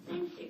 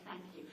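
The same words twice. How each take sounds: First: Grateful thanks. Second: Sincere thanks. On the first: Retold or imitated. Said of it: "they go". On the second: Shown as a demonstration. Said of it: "Isn't it nice to somebody say".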